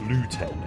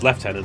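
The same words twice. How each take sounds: First: It is said with an American pronunciation. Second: It is said with a British pronunciation. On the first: The speaker calls it wrong. "as the Americans uh, uh, pronounce it" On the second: The speaker calls it right. "It's how it's pronounced"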